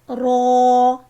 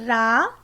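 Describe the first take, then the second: First: The R is said heavy and full. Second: The R is said light and thin. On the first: The speaker calls it right. "we will read Raw in a bold and heavy voice" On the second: The speaker calls it wrong. "If you will read it Ra, it will be wrong"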